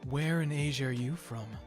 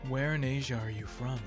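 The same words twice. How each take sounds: First: It is said in an amused, unsteady way. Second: It is said in a straight, composed way.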